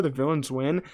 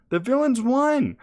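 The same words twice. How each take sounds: First: Said in the usual way. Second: High, slow, louder cry of disbelief; excited outburst. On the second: Real, not acted. Vlogger reviewing the finale, exclaiming in excited disbelief. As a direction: throw the words up in amazed delight.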